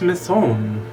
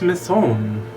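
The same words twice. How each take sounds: First: The name is pronounced the French way. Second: The same.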